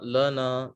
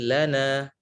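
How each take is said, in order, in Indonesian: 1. Bunyi lam terdengar tebal dan berat. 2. Bunyi lam terdengar tipis dan ringan. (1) "bukan lana" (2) "tapi lana"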